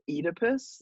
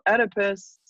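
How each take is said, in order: First: The name is said in a British pronunciation. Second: The name is said in an American pronunciation.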